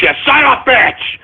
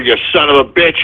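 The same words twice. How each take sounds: First: High-pitched exasperated curse; angry outburst. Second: Low-pitched, disgusted cursing; grumbled curse. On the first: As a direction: let the curse burst out high. Host curses again, higher. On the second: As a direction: curse the caller low in your voice. Host curses the caller, first take. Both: Real, not acted.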